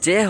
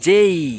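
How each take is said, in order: First: The vowel is a plain 'eh' sound. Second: The vowel glides from 'eh' to 'ee'. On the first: The speaker calls it wrong. "এটা জে হবে না" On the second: The speaker calls it right. "এটা হবে যেই"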